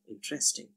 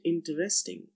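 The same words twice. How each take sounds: First: The middle vowel sound is dropped. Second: The middle vowel sound is kept.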